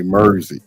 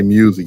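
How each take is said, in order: First: Mersey, music said as mer-zee with an r-colored vowel; music turned into Mersey, mer-zee; mock Southern music. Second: Music said plainly with a clear u; music, mjuzik, the standard way. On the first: Teasing friends by saying music as Mersey. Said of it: "when y'all say music". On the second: Shown as a demonstration. Chicago man saying music the normal way to contrast. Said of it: "y'all say Mersey".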